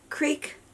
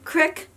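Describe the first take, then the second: First: The vowel is long, as in 'seek'. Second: The vowel is short, as in 'sick'. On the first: This is how another person says it. "he'll say creek" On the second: This is how the speaker herself says it. "I say crick"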